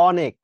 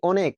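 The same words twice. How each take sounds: First: অনেক with an open "aw" first vowel; open অ sound. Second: অনেক with a rounded "oh" first vowel; closed ও sound. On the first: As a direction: say অনেক as "AW-nek". (অনেক, শুরুতে খোলা অ) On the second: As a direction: say অনেক as "OH-nek". (অনেক, শুরুতে ও-এর মতো উচ্চারণ) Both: Shown as a demonstration. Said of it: "উচ্চারণ করো তো".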